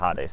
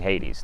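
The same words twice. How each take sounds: First: It uses an unfamiliar, non-English pronunciation. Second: It uses the familiar English pronunciation. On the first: "not Hades" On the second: "to the English ear, we're accustomed to hearing Hades"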